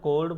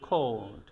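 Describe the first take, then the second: First: The first k sound has no puff of air. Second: The first k sound has a puff of air. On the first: The speaker calls it wrong. "এটারে কখনো কোল্ড বলা যাবে না" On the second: The speaker calls it right. "বলতে হবে কোল্ড"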